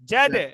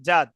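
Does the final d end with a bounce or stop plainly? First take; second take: bounce; plain. First: The final d is released with an echoing bounce. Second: The final d stops plainly without a bounce. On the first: "এখন হবে কি?" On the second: "normal পড়ছি"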